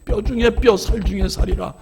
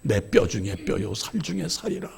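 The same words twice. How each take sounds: First: Higher and firmer, declared to the congregation; preacher driving the verse home; emphatic proclamation. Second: Softer, lower, reverent quoting of Adam; hushed scripture verse, half to himself; tender recitation. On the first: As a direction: proclaim it like a wedding charge. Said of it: "주례사를 대신하는 권면입니다". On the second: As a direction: murmur it like a vow to your bride. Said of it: "아담의 고백처럼 사랑하세요". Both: Shown as a demonstration.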